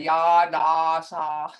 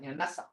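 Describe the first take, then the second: First: Ya, da, sa with the ah dragged out; wrong drawn-out version. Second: Yanasa clipped short and blunt; Yanasa, quick and blunt. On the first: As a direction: show the wrong long ah. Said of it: "And that's not right". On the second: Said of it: "short and blunt". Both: Shown as a demonstration.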